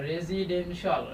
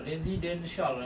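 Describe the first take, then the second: The two takes are said the same way.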